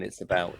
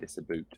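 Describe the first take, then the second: First: It is said in an English accent. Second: It is said in a Scottish accent.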